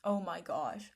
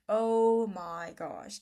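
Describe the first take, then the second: First: Said in the usual way. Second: Louder, slow, stretched-out Oh my gosh; drawn-out exasperated cry. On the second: Real, not acted. Vlogger exasperated about online mental health talk, loud slow groan. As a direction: let the second Oh my gosh burst out long and loud.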